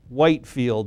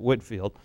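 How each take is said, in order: First: The first syllable has a long 'white' vowel. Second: The first syllable has a short 'whit' vowel.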